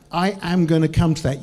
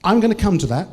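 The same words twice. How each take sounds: First: "am" said in full and stressed; emphatic promise, weight on "am". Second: Said in the usual way. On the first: Real, not acted. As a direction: uncontract it and lean on "am".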